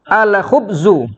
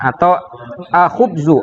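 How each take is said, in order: First: The L of the article is clearly pronounced. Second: The L of the article is dropped. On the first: The speaker calls it right. "Ini semuanya alnya kita baca" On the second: The speaker calls it wrong. "Jangan dibaca"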